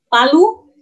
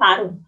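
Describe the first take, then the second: First: The second syllable is said with an l. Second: The second syllable is said with an r. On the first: This is the local Indonesian form of the name. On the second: This is the Japanese reading of the name.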